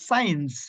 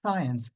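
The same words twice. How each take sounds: First: "science" as one-glide SAINS; wrong pronunciation. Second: "science" in two syllables, SAI-uhns; correct pronunciation. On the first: Teacher shows what not to say from today, wrong pronunciation. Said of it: "not science". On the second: Teacher corrects the club clip's word, correct pronunciation. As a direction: add a schwa inside "science". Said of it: "it's a science". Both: Shown as a demonstration.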